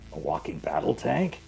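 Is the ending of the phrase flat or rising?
rising. The phrase rises at the end like a question. "can you make it like a question?"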